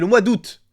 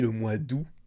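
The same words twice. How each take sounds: First: The final T of 'août' is pronounced. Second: The final T of 'août' is silent. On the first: The speaker calls it right. "Il y a un T à la fin, on le prononce" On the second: The speaker calls it wrong. "J'ai dit le mois d'août au lieu du mois d'août"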